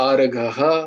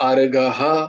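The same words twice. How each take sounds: The two takes are said the same way.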